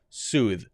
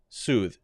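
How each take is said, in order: The two takes are said the same way.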